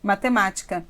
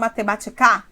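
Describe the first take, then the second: First: The stress is on the third-to-last syllable. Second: The stress is on the last syllable. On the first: The speaker calls it right. "quando cai aqui, essa palavra necessariamente é uma proparoxítona" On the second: The speaker calls it wrong. "Não. Então, não é aqui"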